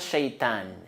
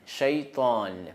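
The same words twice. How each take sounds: First: The t is a plain, light t sound. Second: The t is a heavy, emphatic t sound. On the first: The speaker calls it wrong. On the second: The speaker calls it right.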